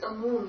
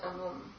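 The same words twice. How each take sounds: First: The second vowel is held long. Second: The second vowel is kept short. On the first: The speaker calls it right. "It's long because it's feminine" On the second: The speaker calls it wrong. "not amum"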